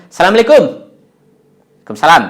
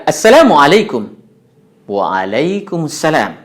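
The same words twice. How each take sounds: First: Assalamualaikum rushed and clipped as salamlaikum; wrong clipped pronunciation. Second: Assalamualaikum with full Arabic vowels and drawn-out Waalaikumsalam; Arabic native accent. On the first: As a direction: swallow the syllables, the way not to say it. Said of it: "jangan mengucapnya". (contoh ucapan salam yang salah dan terpotong) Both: Shown as a demonstration.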